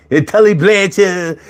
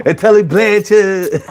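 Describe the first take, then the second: No difference in how they are said.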